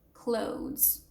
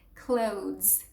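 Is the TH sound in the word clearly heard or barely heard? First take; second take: barely heard; barely heard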